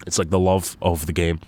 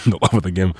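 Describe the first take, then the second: First: Said in the usual way. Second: Laughing repeat, a bit louder; chuckling through the phrase. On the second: Real, not acted. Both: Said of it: "laughs, repeats phrase".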